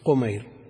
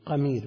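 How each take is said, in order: First: The first vowel is a rounded 'u' sound. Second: The first vowel is an open 'a' sound. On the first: This is the usual diminutive form. "ومن عداها كله بالتصغير قمير" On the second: This is the one special name. "قمير بفتح القاف"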